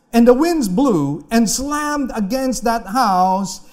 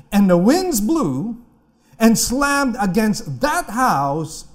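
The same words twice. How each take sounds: Both takes have the same delivery.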